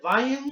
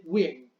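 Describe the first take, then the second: First: Wien said like "VAI-en", with an "ai" diphthong; alternative German pronunciation. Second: Wien said like "ween", opening on a W glide; chosen Spanish-style pronunciation. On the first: Teacher offers students another possible reading of the surname, pronounced "Vaien". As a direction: say Wien as "vine", German-style V and gliding vowel. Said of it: "Puede decirse Wien". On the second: Teacher tells students the reading they will use, pronounced "Win". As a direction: say Wien as "GÜIN", with an "ee" vowel. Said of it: "Yo le voy a decir Wien". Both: Shown as a demonstration.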